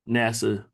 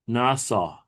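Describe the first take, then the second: First: It is said like the English acronym NASA. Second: It is said with a Hebrew pronunciation. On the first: The speaker calls it wrong. "it's not NASA. Like, you know, NASA" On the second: The speaker calls it right. "when you look at the pronunciation right here, it says NASA"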